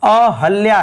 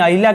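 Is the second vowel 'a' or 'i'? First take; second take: a; i. First: The second vowel is 'a'. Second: The second vowel is 'i'. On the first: The speaker calls it right. "अहल्या है" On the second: The speaker calls it wrong. "अहिल्या गलत है"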